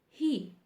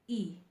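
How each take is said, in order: First: The word begins with an h sound. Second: The word is said without the h sound. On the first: "type he" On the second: "but say at them e"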